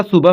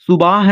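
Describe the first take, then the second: First: सुबह with a short second vowel, "su-bah"; correct short second vowel. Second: सुबह with a long aa, "su-baah"; wrong long second vowel. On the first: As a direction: keep the end of सुबह brief and light. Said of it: "सुबह होता है". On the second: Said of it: "सुबह नहीं होता". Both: Shown as a demonstration.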